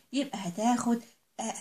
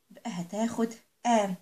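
No difference in how they are said.

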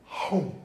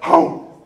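First: A lazy, drawn-out chomp at usual level; slow-motion dog gulp. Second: A sharp, breathy, loud snap of a dog gobbling; dog wolfing a treat, loud unvoiced snap; loud gulping dog chomp. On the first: Retold or imitated. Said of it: "the dog goes". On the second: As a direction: bark out the gulp like a dog scarfing a treat.

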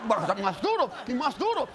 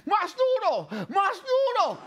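First: Said in the usual way. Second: High mock drill yell; imitated yelled orders. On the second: Tete passes on the trainer's orders, imitated yelling. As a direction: bark it like a demanding trainer. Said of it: "me las grita a mí".

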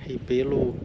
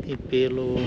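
No difference in how they are said.

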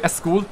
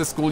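First: "a school", with a vowel before the s; Pakistani pronunciation. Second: Said in the usual way. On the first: Shown as a demonstration. Streamer explaining the difference, "a school" with added opening vowel. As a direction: add a short vowel onto the front, "a school". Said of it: "you say a school". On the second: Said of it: "you don't say school".

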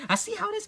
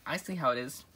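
First: Very high, mock-offended; high offended squeal. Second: Said in the usual way. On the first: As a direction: squeal it up as if hurt.

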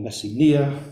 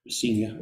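First: Messenia as "messi-NEE-a", louder late stress; Greek-style pronunciation. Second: Messenia as "muh-SEE-nia"; English pronunciation. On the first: Lecturer offering the audience an alternative, Greek-style pronunciation. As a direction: land hard on the "nee" in Messenia. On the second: Lecturer showing how pronunciation will vary, English pronunciation. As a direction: stress the long "see" in Messenia. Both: Shown as a demonstration. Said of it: "My pronunciation will vary".

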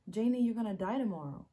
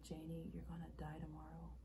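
First: Loud, raised-pitch quote; urgent, emphatic warning; dramatic retelling. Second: Soft, hushed quote; understated, grave delivery; subdued retelling. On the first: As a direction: quote the stranger forcefully. Acted monologue, emphatic second take. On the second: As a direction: quote the stranger quietly. Acted monologue, subdued first take. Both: Acted.

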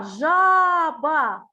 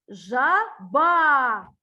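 First: ЖАБА with the first А held long and loud; stretched first A. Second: ЖАБА with the last А held long and loud; stretched final A. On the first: Teacher helping a child find the second sound, first А stretched in ЖАБА. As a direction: draw out the first А in ЖАБА, loudly. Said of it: "Другий звук у нас А". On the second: Teacher asking for the last sound, final А stretched in ЖАБА. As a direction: draw out the ending of ЖАБА, loudly. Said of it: "Який останній звук?". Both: Shown as a demonstration.

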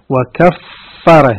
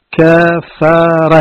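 First: وكفر said slowly as kaffara, the fa doubled and held; stretched shadda on وكفر, kaffara. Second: Said in the usual way. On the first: Shown as a demonstration. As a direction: lean on a long doubled fa in وكفر, kaf-fa-ra. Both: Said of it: "بالتشديد".

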